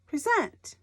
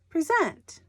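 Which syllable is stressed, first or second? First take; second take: second; second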